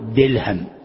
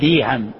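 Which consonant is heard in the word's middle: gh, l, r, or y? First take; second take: l; y. First: The middle consonant is an l sound. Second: The middle consonant is a y sound. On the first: "تجده يقول دلهم" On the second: "بعضهم يأتي بالياء فيقول ديهم"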